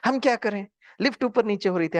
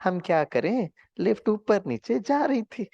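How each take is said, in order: First: Higher irritated "हम क्या करें?", snapped back; angry. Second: Lovingly. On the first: Retold or imitated. Retelling his retort to the driver, mildly angry. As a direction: snap "lift ऊपर नीचे हो रही थी" defensively. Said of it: "हमने क्या कहा?". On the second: Shown as a demonstration. Showing the class how to answer the driver lovingly. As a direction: say the same excuse kindly and slowly. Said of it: "अब वही चीज थोड़ा प्यार से बोल सकते थे ना".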